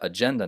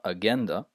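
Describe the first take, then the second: First: The middle consonant is a j sound. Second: The middle consonant is a hard g. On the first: The speaker calls it right. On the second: The speaker calls it wrong.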